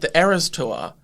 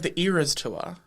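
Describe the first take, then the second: First: Said in an Australian accent, like error. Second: Said in an American accent.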